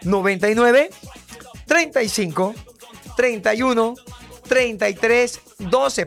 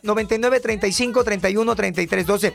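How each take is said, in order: First: The number is said slowly. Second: The number is said fast.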